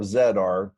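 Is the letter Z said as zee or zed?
zed. The letter Z is said as zed.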